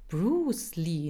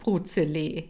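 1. Der Name wird mit englischen Lauten ausgesprochen. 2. Der Name wird mit deutschen Buchstabenlauten gelesen. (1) "So sprach man das also aus" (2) "nicht Bruzele"

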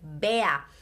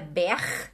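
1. O r é pronunciado como a vogal a. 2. O r é pronunciado como consoante. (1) "O R tem sim som de A" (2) "Não é bear"

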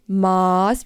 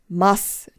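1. Der Vokal klingt wie der in Maßband. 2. Der Vokal unterscheidet sich von dem in Maßband. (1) "nicht Maß wie das Maßband" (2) "wird richtig ausgesprochen. Maß"

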